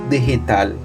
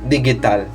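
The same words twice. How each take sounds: First: The g sounds like an h. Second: The g does not sound like an h. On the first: The speaker calls it right. "It's digital" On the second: The speaker calls it wrong. "you don't pronounce it digital"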